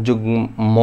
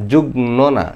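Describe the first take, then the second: First: যুগ্ম said "jugmo" with a clear ম; যুগ্ম ending in a real m sound; correct form. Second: যুগ্ম said "jugno", the wrong way; যুগ্ম with ন, as people wrongly say it; wrong form. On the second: (ভুল উচ্চারণ: যুগ্ম "জুগ্নো") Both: Shown as a demonstration.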